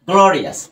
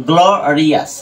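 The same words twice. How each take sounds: First: Said in the usual way. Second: গ্লোরিয়াস with a slight split after the first syllable; pronunciation demo. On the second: Shown as a demonstration. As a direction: model গ্লোরিয়াস carefully in its parts. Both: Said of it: "উচ্চারণ করি".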